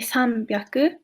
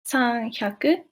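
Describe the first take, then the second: First: The second part starts with a b sound. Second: The second part starts with an h sound. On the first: The speaker calls it right. "it will be" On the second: The speaker calls it wrong. "be careful not to say"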